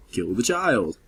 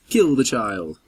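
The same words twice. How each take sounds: First: Said in the usual way. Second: Menacing command. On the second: Pretend. Commanding the vampire.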